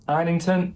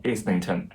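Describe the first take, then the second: First: "Islington" with a silent s, opening like "eye"; higher-pitched, careful "Islington" with the s left silent; correct name pronunciation. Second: "Islington" with the s sounded; mistaken name pronunciation. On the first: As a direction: say "Islington" as EYE-lington, no s sound. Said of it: "learned how to pronounce the author's name correctly". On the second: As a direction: say "Islington" as IZ-lington, voicing the s. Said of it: "not Islington". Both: Shown as a demonstration.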